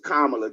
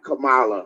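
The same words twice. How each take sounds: First: The name begins like 'comma', then 'la'. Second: The name does not begin like 'comma'. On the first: The speaker calls it right. "think of a comma and then la on the end" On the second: The speaker calls it wrong. "it's not Kamala"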